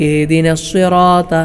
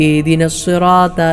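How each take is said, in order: The two takes are said the same way.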